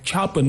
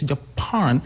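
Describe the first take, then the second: First: "Japan" wrongly stressed on JA; wrong first-syllable stress. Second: "Japan" with PAN stressed; second-syllable stress. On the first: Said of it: "the stress is not on the first syllable". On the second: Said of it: "second syllable". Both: Shown as a demonstration.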